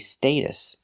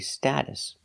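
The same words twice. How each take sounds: First: The first vowel is not the short a. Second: The first vowel is the short a of cat. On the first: "We never say status. ... It's just British" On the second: "In America, we always say status"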